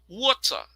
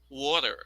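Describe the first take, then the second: First: The middle t is a clear t. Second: The middle t sounds like a quick d. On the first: "the first version is the British" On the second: "the next one is American"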